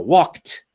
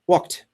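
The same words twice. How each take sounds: First: The final t is said strongly and clearly. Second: The final t is quick and barely heard. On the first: "So I'm exaggerating now" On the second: "if I say it quickly, it's kind of a small sound"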